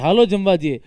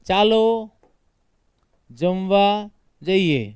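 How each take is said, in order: First: The first word begins with an 'h' sound. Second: The first word begins with a 'ch' sound. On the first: "સૌરાષ્ટ્રમાં જો તો ચાલો નહીં બોલે" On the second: "देखो ये बोला मैंने चालो।"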